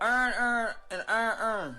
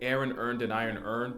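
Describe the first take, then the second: First: It is said in a Baltimore accent. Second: It is said in a general American accent.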